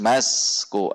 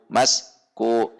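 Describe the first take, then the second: First: The word is said joined without any break. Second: The word is split with a break in the middle. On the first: The speaker calls it right. "harus masku, antara asku asku dibaca menyambung" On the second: The speaker calls it wrong. "Tidak boleh dibaca mas ku mas ku"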